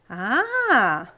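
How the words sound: The 'ah' sounds impressed and full of wonder. The speaker is impressed by something. "um A de admiração"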